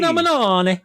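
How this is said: It is said in an exaggerated Italian accent.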